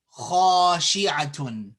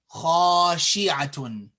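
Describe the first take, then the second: Both takes have the same delivery.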